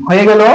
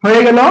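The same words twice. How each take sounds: The two takes are said the same way.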